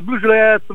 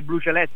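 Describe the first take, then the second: First: The words are slurred together and swallowed. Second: Each word is articulated clearly and fully. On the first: "lo canta" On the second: "senza scandire"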